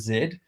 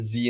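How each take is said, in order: First: The letter is said the British way. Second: The letter is said the American way. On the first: It is the usual version the host would say. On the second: It is the version given to the American co-host.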